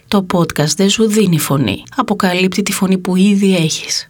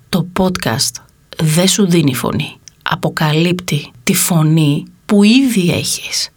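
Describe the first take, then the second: First: The sentence is spoken at a moderate pace. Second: The sentence is spoken very slowly. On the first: The speaker lets the listener catch the shift in meaning. The speaker calls it right. "όπως νομίζω ότι πρέπει να ακουστεί" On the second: The speaker tries to make it seem more important than it is. The speaker calls it wrong. "Και τώρα την πω πολύ αργά"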